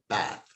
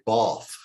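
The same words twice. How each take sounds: First: Bath is said in a northern English accent. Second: Bath is said in a posh English accent. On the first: "in the north of England is pronounced" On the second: "as the posh English say"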